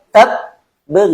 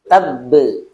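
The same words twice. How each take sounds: First: There is a pause at the doubled consonant. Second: The doubled consonant is pressed without a pause. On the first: The speaker calls it wrong. "Kalau kalau jadi jeda, tabbe nggak boleh" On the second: The speaker calls it right. "Jadi dia bukan jeda tapi nekan"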